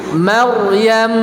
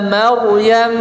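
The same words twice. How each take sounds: The two takes are said the same way.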